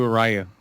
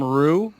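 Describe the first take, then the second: First: "Ryu" said as "RYE-oo"; alternative pronunciation. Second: "Ryu" said as one syllable, "roo"; alternative pronunciation. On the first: Co-host offers the other name, "Ryu" as "RYE-oo". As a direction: say "Ryu" with a first syllable like "rye". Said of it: "people call him Ryu or Ryu". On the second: Co-host shows what people call the fighter, "Ryu" as "roo". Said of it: "People, people call him Ryu". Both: Shown as a demonstration.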